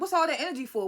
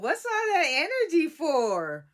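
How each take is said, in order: First: It is said firmly, in a confronting tone. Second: It is said lightly, as if smiling. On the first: The speaker clearly means it. The speaker calls it right. "You need to be like" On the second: The speaker does not seem to mean it. The speaker calls it wrong. "smiling while you do it ... Why are you saying it like that?"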